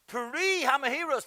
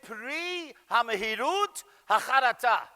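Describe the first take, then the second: First: Pri Hamehirus with the Ashkenazi final s, said slowly; same phrase again in regular Ashkenazi Hebrew; Ashkenazi pronunciation. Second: Pri Hamehirut Hacharata with a Sephardic final t, said slowly; Sephardic pronunciation. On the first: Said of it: "how an Ashkenazi would say it". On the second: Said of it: "I'll say it in the Sephardic dialect". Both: Shown as a demonstration.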